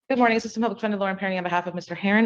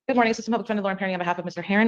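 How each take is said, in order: First: It is said more slowly. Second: It is said fast.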